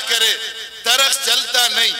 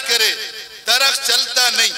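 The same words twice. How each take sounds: The two takes are said the same way.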